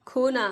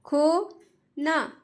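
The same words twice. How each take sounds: First: Said in the usual way. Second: "खोना" stretched very slowly, falling; slow drawn-out word. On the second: Shown as a demonstration. Teacher reads "खोना" slowly for children to copy. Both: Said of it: "जिस तरीके से मैं पढ़ रही हूँ".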